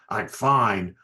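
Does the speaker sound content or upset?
upset. The voice sounds clipped and upset. She is not really fine.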